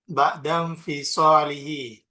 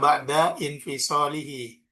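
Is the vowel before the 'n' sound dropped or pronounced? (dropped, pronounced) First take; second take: dropped; pronounced. First: The words run together with no separate vowel. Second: A separate vowel is voiced before the 'n'. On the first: The speaker calls it right. "Maka ini cara bacanya" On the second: The speaker calls it wrong. "jangan dibaca"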